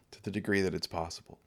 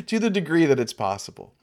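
First: Softer, quicker repeat of the degree that it's possible; an afterthought under the breath; soft quick echo. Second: Said in the usual way. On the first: Acted. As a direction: toss the repeat away, much softer. Repeated phrase, echoed softer.

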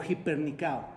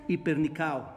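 First: "hipernicao" opening on a breathy Spanish j sound; initial H pronounced. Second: Said in the usual way. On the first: Shown as a demonstration. Preacher teaching the congregation a Greek word, "hipernicao" with its H sounded. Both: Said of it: "Lleva un H antes".

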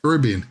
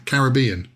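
First: "Caribbean" echoed with stress on RIB; "Caribbean" copying the American correction; echoed pronunciation. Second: "Caribbean" with the stress on BEE; "Caribbean", third syllable stressed; British pronunciation. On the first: Retold or imitated. Echoes the correction, then own way. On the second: Shown as a demonstration.

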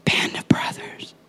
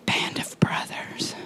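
First: Whispered refrain, unhurried. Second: Slower, drawn-out whisper. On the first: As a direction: breathe the phrase out like a secret. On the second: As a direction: stretch the whisper, let it linger. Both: Acted.

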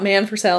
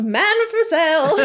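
First: Said in the usual way. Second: Mock yelling out. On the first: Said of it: "hears him yelling out". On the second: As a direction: call it out like a vendor, half laughing. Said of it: "yelling out".

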